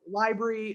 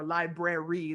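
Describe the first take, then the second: First: It is said with a British pronunciation. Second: It is said with an American pronunciation. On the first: "he says it in the British way" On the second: "that most Americans tend to say"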